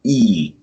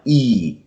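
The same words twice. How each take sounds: The two takes are said the same way.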